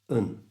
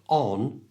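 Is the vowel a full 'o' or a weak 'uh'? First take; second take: weak uh; full o. First: The vowel is a short, weak 'uh' sound. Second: The vowel is a full, rounded 'o' sound. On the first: The speaker calls it right. "it becomes un" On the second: The speaker calls it wrong. "instead of on"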